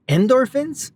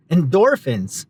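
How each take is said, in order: First: "Endorphins?" with a rising, questioning tune, stress misplaced; wrong stress. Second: "Endorphins?" with a falling tune, stress on the middle syllable, dor; corrected stress. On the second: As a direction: settle "Endorphins?" with the stress on dor, going down at the end. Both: Shown as a demonstration. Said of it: "putting the emphasis on the wrong syllable".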